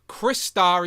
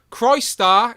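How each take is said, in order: First: The first part sounds like the name 'Chris'. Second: The first part sounds like the word 'Christ'. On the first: "Chris Star is two" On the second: "Christ Star is one"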